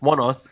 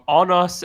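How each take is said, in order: First: The first word sounds like 'one'. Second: The first word sounds like 'on'. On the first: The speaker calls it right. "it's One Us" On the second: The speaker calls it wrong. "I've been pronouncing that wrong"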